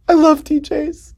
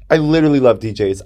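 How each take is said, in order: First: Very high, slow squeal of adoration; giddy. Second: Said in the usual way. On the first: Real, not acted. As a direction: squeal it slowly, giddy with love. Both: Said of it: "I get little giddy".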